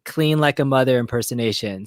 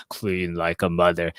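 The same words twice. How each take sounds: First: Said in the usual way. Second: Much lower, slower, deep and heavy; Joel's deep voice. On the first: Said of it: "do your best". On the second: Retold or imitated. Mimicking Joel's deep voice to the host. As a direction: drop the voice low and drag it out. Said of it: "Joel has a really deep voice like this".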